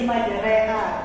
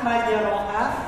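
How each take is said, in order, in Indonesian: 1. Vokal setelah R itu E. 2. Vokal setelah R itu A terbuka. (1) "jadi majreha" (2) "harusnya majroha"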